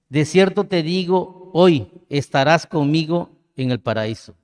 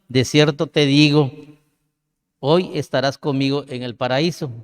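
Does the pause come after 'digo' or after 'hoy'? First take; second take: after hoy; after digo. First: The pause comes right after 'hoy'. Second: The pause comes right after 'digo'. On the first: The promise is made today; paradise comes in the future. The speaker calls it right. "después de la palabra hoy" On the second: The thief will be in paradise that same day. The speaker calls it wrong. "después de la palabra digo"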